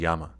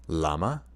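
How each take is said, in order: First: The name begins with a Y sound. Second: The name begins with an L sound. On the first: The speaker calls it right. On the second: The speaker calls it wrong.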